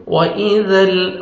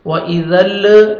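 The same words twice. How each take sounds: First: "وَإِذَا ال" ending on a still l; steady lam. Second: "وَإِذَا ال" with a bounced l at the end; wrong shaken lam. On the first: Teacher showing correct sukoon, "وَإِذَا ال" with unmoved lam. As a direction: stop on the l of "وَإِذَا ال" without bouncing it. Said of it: "لام کو ہم نے ہلانا نہیں ہے". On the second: Teacher mimicking learners' mistake, "وَإِذَا ال" with shaken lam. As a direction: let the l of "وَإِذَا ال" bounce into a short vowel. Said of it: "ایسا غلط ہے". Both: Shown as a demonstration.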